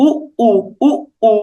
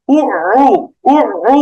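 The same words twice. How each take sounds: First: Short stopped উ, then উ released afresh; plain উ with a clean glottal catch; natural hamza. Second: উ squeezed from the middle of the throat; doubled Arabic ayn on উ. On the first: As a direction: say উ normally, not from mid-throat. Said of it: "এরকম স্বাভাবিক উচ্চারণ করতে হবে". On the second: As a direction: draw উ through a tightened throat. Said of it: "এরকম একটু গলার মাঝখানে নিতে হতো". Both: Shown as a demonstration.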